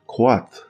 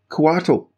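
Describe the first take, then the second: First: It uses the original Nahuatl pronunciation. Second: It uses the common English gaming pronunciation. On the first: "by its Aztec or Nuat, Nuhat, Nuhat pronunciation, it's actually Coatl" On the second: "which most D and D players pronounce that way"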